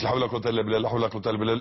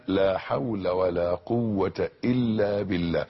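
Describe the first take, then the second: First: لا حول ولا قوة إلا بالله gabbled, words swallowed; hurried mumbled dhikr; rushed careless recitation. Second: لا حول ولا قوة إلا بالله said slowly with doubled إلّا and بالله; every word full and unhurried; measured slow dhikr; slow careful recitation. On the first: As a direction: rattle it off carelessly. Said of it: "مش". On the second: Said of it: "بالطريقة اللي أنا بقولها دي". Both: Shown as a demonstration.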